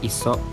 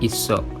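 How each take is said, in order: First: The middle consonant is single and short. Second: The middle consonant is doubled and held. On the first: The speaker calls it wrong. "bukan iso" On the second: The speaker calls it right. "diucapkan double"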